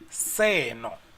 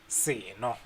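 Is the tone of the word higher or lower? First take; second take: higher; lower. First: The word is said with a higher tone. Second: The word is said with a lower tone. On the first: This thing. "it goes higher there for say no" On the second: A cool drink. "it's like something you are drinking"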